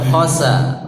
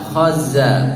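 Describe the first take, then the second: First: The middle consonant is a voiceless hissing s. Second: The middle consonant is a voiced buzzing z. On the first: The speaker calls it wrong. "Za tidak boleh khosa" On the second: The speaker calls it right. "Sifatnya jahar. Ya, khaza bukan khosa"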